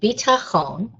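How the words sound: It is said in the modern Hebrew pronunciation.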